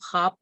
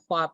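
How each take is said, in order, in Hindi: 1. kh के बाद w की आवाज़ मौन है। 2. kh के बाद w की आवाज़ उच्चारित होती है। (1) "उसमें वो वाव साइलेंट होता है और उसको हम ख्वाब पढ़ते हैं" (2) "ख्वाब नहीं"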